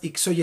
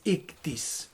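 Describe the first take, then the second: First: The word ends with an e vowel sound. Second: The word ends with an s sound. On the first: This is the Hispanicized reading of the Greek letters. The speaker calls it wrong. "se ha castellanizado como ixoye, pero en sí no es ixoye" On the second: This is the original Greek reading of the letters. The speaker calls it right. "es ictis"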